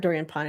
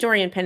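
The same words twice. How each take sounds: First: The surname has a French pronunciation, unlike pin. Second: The surname sounds like the English word pin. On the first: The speaker calls it right. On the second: The speaker calls it wrong.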